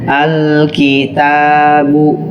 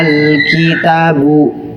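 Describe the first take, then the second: First: The vowel after the t is held long. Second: The vowel after the t is cut short. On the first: The speaker calls it right. "ada bacaan kitabun" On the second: The speaker calls it wrong. "Ada huruf mad yang dihilangkan"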